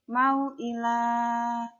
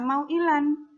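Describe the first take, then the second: First: The word ends with a long a vowel. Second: The word ends with an n sound. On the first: The speaker calls it right. "tetapi dibaca mau'ilah. Jangan lupa dipanjangkan dua harokat" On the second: The speaker calls it wrong. "maka dia tidak dibaca mau'ilan"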